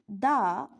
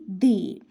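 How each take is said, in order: First: It is the form of 'the' used before consonants. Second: It is the form of 'the' used before vowels. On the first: "before consonant sounds we have to pronounce the" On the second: "before vowel sound we have to pronounce the"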